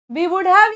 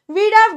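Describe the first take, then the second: First: Would is said in full as a separate word. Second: Would is shortened to a d sound after we. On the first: "we would have या we had have" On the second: "this is how you're going to pronounce these words"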